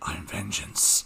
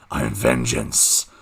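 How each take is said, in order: First: It is said in a plain normal voice. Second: It is said in a deep Batman growl.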